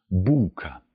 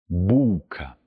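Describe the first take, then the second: Both takes have the same delivery.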